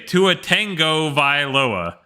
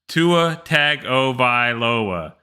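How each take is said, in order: First: The surname is said with a 'tango' start. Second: The surname is said with a plain 'tago' start. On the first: The speaker calls it wrong. "there's no tango in his name" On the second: The speaker calls it right. "His name is Tua Tagovailoa"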